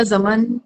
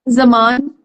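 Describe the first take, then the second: First: जमन with a short second vowel, "za-man"; alternative name reading. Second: जमान with a long second vowel, "za-MAAN"; unsure name reading. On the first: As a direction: try जमन with a brief a before the n. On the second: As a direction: try जमान with a drawn-out aa before the n. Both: Real, not acted. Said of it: "I don't know".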